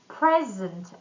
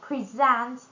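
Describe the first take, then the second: First: The stress is on the first syllable. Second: The stress is on the second syllable. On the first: It is a noun or adjective. "when we stress the first syllable, it's going to be noun or adjective" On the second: It is a verb. "when we stress the second one, it's going to be a verb"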